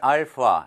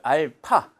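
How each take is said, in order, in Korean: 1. 가운데 자음은 f 소리예요. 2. 가운데 자음은 숨이 섞인 p예요. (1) "F 발음 알파 이렇게 하는데" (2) "요거 자체는 H 발음이 들어간다"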